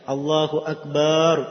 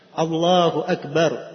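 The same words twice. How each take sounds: First: The b sound in Akbar is drawn out long. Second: The b sound in Akbar is kept short. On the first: It spoils the meaning of the phrase. The speaker calls it wrong. "B-nya panjang" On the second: The phrase keeps its proper meaning. The speaker calls it right. "harus dia ucapkan sesuai dengan kadar harokatnya"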